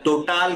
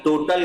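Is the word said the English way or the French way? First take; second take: French; English. First: The word is pronounced the French way. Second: The word is pronounced the English way. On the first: The speaker calls it wrong. "Adani टोटाल gas नहीं है ये" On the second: The speaker calls it right. "वो Adani टोटल gas है"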